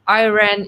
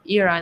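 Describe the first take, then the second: First: It sounds close to the word iron. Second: It does not sound like the word iron. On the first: It names a metal, not the country. The speaker calls it wrong. "Iran is a material" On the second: It names the country. The speaker calls it right. "Iran is the country"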